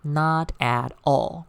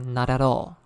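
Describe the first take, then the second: First: Each word is said separately, without linking. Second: Final consonants run smoothly into the following vowels. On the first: The speaker calls it wrong. "We will not say it like this" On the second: The speaker calls it right. "So t and at will be linked"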